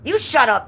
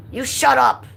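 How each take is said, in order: First: High loud retort; loud mock shout. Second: Loud high reading of chat; mock yell. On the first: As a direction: yell it back at Michelle. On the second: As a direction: shout it back playfully. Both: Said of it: "Michelle says".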